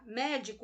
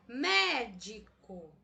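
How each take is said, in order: First: The stress is on the last syllable. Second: The stress is on the first syllable. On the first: The speaker calls it wrong. "Veja que eu estou intensificando a sílaba co" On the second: The speaker calls it right. "Até agora eu intensifiquei a sílaba me"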